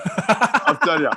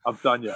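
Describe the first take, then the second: First: Slow laughing gloat. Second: Said in the usual way. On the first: Retold or imitated. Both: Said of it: "I remember thinking".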